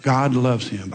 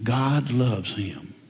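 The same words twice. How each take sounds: First: Said in the usual way. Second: Very slow, soft and weighty; slow and softly sincere; slow emphasis. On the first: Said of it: "Did you see this guy". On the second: Real, not acted. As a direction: let each word land gently. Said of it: "as this guy was".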